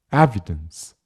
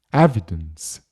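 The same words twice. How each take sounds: No difference in how they are said.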